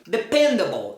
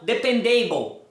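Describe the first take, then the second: First: The ending 'able' is unstressed and reduced. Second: The ending 'able' is stressed and full. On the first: The speaker calls it right. "nunca vai ser a sílaba tônica" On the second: The speaker calls it wrong. "pronunciam de forma errada"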